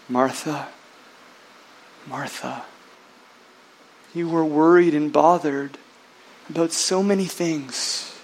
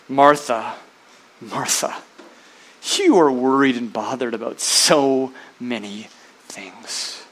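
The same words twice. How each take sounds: First: It is said in a gentle, tender tone. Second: It is said in a harsh, scolding tone.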